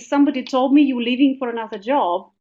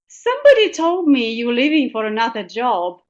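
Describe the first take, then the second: First: It is said in a plain, neutral way. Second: It is said knowingly, hinting at someone known.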